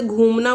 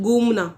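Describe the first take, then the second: First: घूमना said with a breathy aspirated gh, as it should be; teacher gives the right घूमना with an aspirated gh; correct aspirated gh. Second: घूमना said as गूमना with a plain g and no breath; wrong unaspirated g. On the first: Teacher models the correct aspirated घूमना for students. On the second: Teacher demonstrates the students' mistake, घूमना said as गूमना. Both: Shown as a demonstration. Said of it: "इसकी जगह क्या बोलते हैं".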